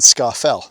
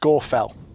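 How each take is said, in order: First: The first syllable sounds like 'scar'. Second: The first syllable sounds like 'score'. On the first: The speaker calls it wrong. "majority of people would say ... they would in fact be incorrect" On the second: The speaker calls it right. "It's actually pronounced Scafell"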